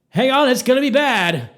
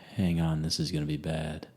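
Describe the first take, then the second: First: It is said with alarm in the voice. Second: It is said calmly, with no alarm. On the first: Danger is coming, stated in a panic. "not like" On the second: Danger is coming, stated matter-of-factly. "At that level, no alarm in his voice"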